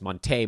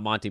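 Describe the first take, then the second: First: The name ends with an 'ay' sound. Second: The name ends with an 'ee' sound. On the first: The speaker calls it right. "there's an accent on the E" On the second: The speaker calls it wrong. "everybody's been saying his name wrong"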